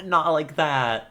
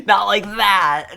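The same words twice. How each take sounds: First: Softer repeated protest. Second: Real, loud, slowed laughing shout; laughing protest. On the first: Streamer repeating her objection to chat, calmer laughing. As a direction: still laughing, a bit louder and slow. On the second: Flustered streamer yelling at chat's teasing, loud and laughing. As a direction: yelp it out through laughter, higher and louder. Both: Real, not acted.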